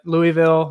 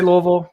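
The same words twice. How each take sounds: First: Louisville said as LOO-ee-vil, three clear syllables; alternative pronunciation. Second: Louisville squeezed into two syllables, LOH-vul; local pronunciation. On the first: Guest offering the host another option, alternative pronunciation LOO-ee-vil. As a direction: say Louisville with a silent S, like Louie-ville. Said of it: "pronounce it how you want". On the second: Guest showing the host how he says his hometown, local pronunciation. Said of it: "I say Louisville". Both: Shown as a demonstration.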